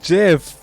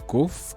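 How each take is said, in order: First: It begins with a soft J sound. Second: It begins with a hard G sound. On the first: The speaker calls it right. "It's pronounced Jeff" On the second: The speaker calls it wrong. "I just butchered the living daylights out of that"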